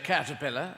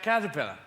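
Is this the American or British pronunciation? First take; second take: American; British. First: It is said with an American pronunciation. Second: It is said with a British pronunciation. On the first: "you say" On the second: "we say"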